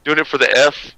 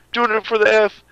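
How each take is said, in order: First: Said in the usual way. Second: High hammed-up announcer voice; mock announcer voice. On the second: Shown as a demonstration. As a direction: belt it like a hype man.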